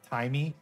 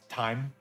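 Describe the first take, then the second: First: An extra vowel is sounded at the end. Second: The word ends without an extra vowel. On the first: The speaker calls it wrong. "It's not timey" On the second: The speaker calls it right. "It's just time"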